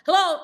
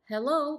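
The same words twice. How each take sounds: First: It sounds agitated and hurried. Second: It sounds calm and relaxed.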